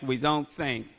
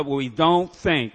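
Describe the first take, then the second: First: Said in the usual way. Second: We don't think, said slowly and loudly with weight on "don't"; slow emphatic. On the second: Shown as a demonstration. Speaker drilling the point home to the AA room, slow and loud. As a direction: lean hard on "don't" and stretch the phrase out.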